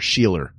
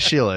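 First: The name ends with an added R sound. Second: The name ends in a plain vowel. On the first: This is how a New Yorker said it. "he would always call my mother Sheeler" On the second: This is the usual way to say it. "Instead of Sheila"

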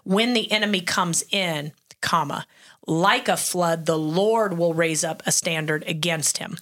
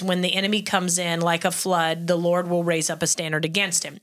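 First: There is a pause after "comes in." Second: There is no pause after "comes in."

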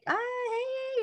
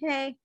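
First: It is said in an excited tone. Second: It is said flatly, without emotion.

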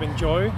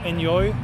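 First: It is said with a standard English accent. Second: It is said with a Swedish accent. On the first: The speaker calls it right. "instead of enjoy" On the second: The speaker calls it wrong. "with our Swedish accent, we would say enjoy"

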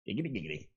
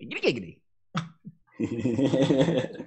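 First: It is said in a lower pitched voice. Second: It is said in a higher pitched voice.

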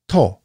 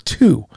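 First: The vowel is an oh sound. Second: The vowel is an oo sound. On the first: This is the Japanese reading of the letters. "it needs to be read To" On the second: This is the usual English reading of the letters. "the letters T and O together are 2"

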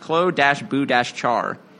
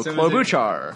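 First: The name is said slowly, syllable by syllable. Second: The name is said quickly as one word. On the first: This follows the name's written form. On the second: This is how it sounds in everyday speech.

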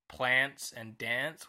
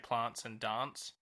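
First: It is said with an eastern-states Australian pronunciation. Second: It is said with the speaker's own state's pronunciation. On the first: "in the eastern states they say things like plants and dance" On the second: "whereas we say plants and dance"

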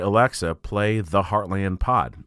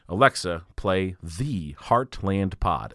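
First: It is said at a normal, natural pace. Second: It is said slowly, like a robot.

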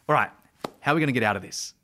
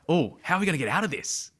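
First: It sounds confident and authoritative. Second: It sounds curious, with childlike wonder.

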